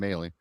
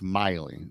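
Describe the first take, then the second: First: The first syllable sounds like 'may'. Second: The first syllable sounds like 'my'. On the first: The speaker calls it wrong. "I said, "Oh, Tim Maley,"" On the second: The speaker calls it right. "and then it's Miley. So I got that corrected"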